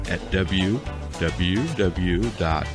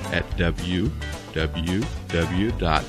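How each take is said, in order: Both takes have the same delivery.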